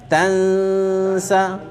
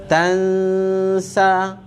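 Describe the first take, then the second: No difference in how they are said.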